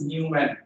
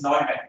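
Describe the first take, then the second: First: The first syllable sounds like 'new'. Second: The first syllable does not sound like 'new'. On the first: The speaker calls it wrong. "It is not pronounced as Newman" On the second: The speaker calls it right. "it is Neumann"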